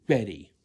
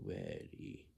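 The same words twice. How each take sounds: First: Very loud, brisk answer; with effort. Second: Very low, slack, drawn-out mumble; mock a lazy answer, voice dropped right down. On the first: Shown as a demonstration. Adult showing how to answer Heather's call, loud and effortful. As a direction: belt it out like an eager reply. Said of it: "You sound like this". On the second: Adult showing how not to answer Heather, lazy low drone. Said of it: "You don't sound like this".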